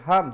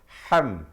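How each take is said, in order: First: The h is a plain soft h. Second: The h is raspy, from deep in the throat. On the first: The speaker calls it wrong. "selalu orang silap di situ" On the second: The speaker calls it right. "tetapi ham"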